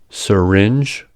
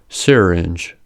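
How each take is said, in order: First: The R starts the next syllable as a consonant. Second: The R colors the vowel before it. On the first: "similar examples" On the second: "similar examples"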